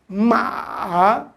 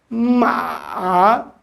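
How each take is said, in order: No difference in how they are said.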